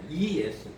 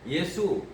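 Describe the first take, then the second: First: The name starts with an added 'ee' sound. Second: The name starts with a plain 'ye' sound. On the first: The speaker calls it right. "이 예수입니다" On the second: The speaker calls it wrong. "예수 아니고"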